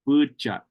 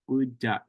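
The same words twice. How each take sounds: First: The middle consonant is a ch sound. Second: The middle consonant is a t sound. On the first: This is the form used further north, like McDermott. "they pronounce this D more like a ch ch sound" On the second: This is the form used around Pyramid Lake. "he has it with the T sound"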